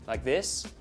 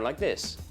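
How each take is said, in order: First: The pitch rises at the end. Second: The pitch falls at the end. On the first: "But some accents go up" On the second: "go down at the end like this"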